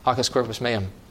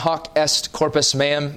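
First: It is said fast, running together. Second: It is said at a normal pace.

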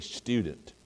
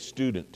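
First: It is said with a British pronunciation. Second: It is said with an American pronunciation. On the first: "they say student" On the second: "you say student"

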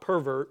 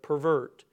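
First: The stress is on the first syllable. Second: The stress is on the second syllable. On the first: It is the noun naming a person. The speaker calls it wrong. "not pervert" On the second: It is the verb meaning to corrupt. The speaker calls it right. "The verb tense"

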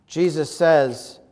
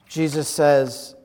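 Both takes have the same delivery.

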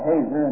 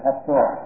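First: The stress is on the first syllable. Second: The stress is on the last syllable. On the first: The speaker calls it wrong. "I used to pronounce that Hazer until I learned better" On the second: The speaker calls it right. "The accent on the last syllable"

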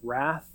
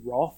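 First: The r sound is pronounced in the word. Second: The r sound is dropped from the word. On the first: The speaker is from around here. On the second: The speaker is not from around here.

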